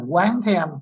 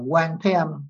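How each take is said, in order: First: The first syllable has a rising tone. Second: The first syllable has a level tone. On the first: The speaker calls it right. "phải nguyện là Quán Thế Âm" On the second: The speaker calls it wrong. "nếu mà không lưu ý á thì sẽ niệm là Quan Thế Âm"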